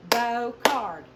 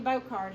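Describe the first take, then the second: First: BOCARD split as loud BO, then CARD; clapped-out syllables. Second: Said in the usual way. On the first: Shown as a demonstration. Teacher claps out her last name, BOCARD as BO-CARD. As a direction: beat out BOCARD loudly in two parts. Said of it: "syllables are those things we clap out". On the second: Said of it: "My last name".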